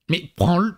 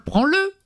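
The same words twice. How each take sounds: First: Said in the usual way. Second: Much higher, pleading rise; exasperated plea. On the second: Retold or imitated. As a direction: beg in exasperation, pitch flying up. Parent pleads with child. (supplique exaspérée, voix qui monte très haut)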